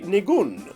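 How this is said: The word is said with a Hebrew pronunciation. "if you pronounce it with the Hebrew inflection"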